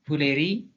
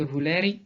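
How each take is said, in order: First: "voleri" stressed on the final RI; accent position. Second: "voleri" stressed on LE; accent position. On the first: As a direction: land on the end of "voleri". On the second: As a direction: lean on the middle of "voleri". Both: Shown as a demonstration. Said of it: "La position de l'accent peut changer".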